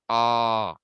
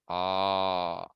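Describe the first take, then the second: First: The vowel is held for two beats. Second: The vowel is held for three beats. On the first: "two lengths" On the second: "three lengths"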